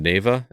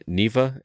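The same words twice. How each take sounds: First: Neva said as NAY-vah; first pronunciation of Neva. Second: Neva said as NEE-vah; alternative pronunciation of Neva. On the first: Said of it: "Mark's question about this game". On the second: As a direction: say Neva with a long "ee" first vowel. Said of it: "or Neva". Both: Shown as a demonstration.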